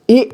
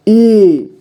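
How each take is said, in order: First: ई said briefly and cut off; short vowel ई. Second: ई stretched out and held; long vowel ई. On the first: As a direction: say a quick, short ई. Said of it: "कम समय में उच्चारण". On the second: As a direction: draw the ई out slowly. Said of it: "ज़्यादा समय खींचेंगे थोड़ा". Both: Shown as a demonstration.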